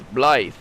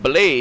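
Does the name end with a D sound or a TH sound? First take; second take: TH sound; D sound. First: The name ends with a soft TH sound. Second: The name ends with a hard D sound. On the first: The speaker calls it right. "with a soft T H sound like the" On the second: The speaker calls it wrong. "he's not Blade"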